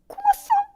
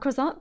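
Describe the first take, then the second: First: It is said in a very high-pitched voice. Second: It is said in a normal speaking voice.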